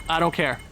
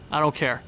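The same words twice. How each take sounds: The two takes are said the same way.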